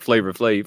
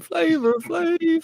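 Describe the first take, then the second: First: Said in the usual way. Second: "Flavor Flav" drawn way out, very high; stretched-out hype call. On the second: Shown as a demonstration. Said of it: "You gotta stretch it out a little bit".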